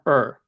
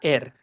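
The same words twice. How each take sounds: First: The vowel is an English r-colored sound. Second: The vowel is a clear Spanish e sound. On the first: The speaker calls it right. "eso suena er, sir" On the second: The speaker calls it wrong. "esto no suena er"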